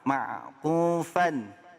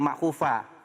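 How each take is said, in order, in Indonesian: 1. Kata ini berakhir dengan bunyi n yang jelas. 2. Kata ini berakhir dengan vokal, tanpa n. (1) "Nih ada uh, tanwin" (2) "bukan ma'kufa"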